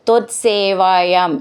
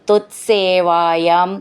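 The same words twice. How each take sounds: Both takes have the same delivery.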